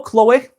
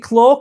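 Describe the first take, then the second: First: Chloe in two syllables, "klo-ee", higher and rising; second pronunciation attempt. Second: Chloe said as one syllable, "klo", rising; unsure name pronunciation. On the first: Streamer checking a viewer's name, Chloe as questioning "klo-ee". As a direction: ask Chloe with the final ee sounded. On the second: Streamer checking a viewer's name, Chloe as questioning "klo". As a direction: try Chloe as "klo", without the final ee. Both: Real, not acted. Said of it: "is it Chloe?".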